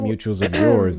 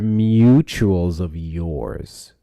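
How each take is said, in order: First: The phrase is spoken at a normal speed. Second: The phrase is spoken noticeably more slowly.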